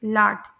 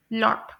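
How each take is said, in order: First: लाट with a long open "aa", like laht; American lot. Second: लॉट with a rounded "o", like lott; British lot. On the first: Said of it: "US में". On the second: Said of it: "UK में pronounce किया जाता है". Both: Shown as a demonstration.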